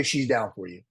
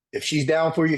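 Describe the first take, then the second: First: Said in the usual way. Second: "if she's down for you" punched higher and louder; first time said with force; emphatic first take. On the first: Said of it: "repeat said plainly". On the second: Real, not acted. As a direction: lean hard into "down for you". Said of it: "emphatic first of repeated phrase".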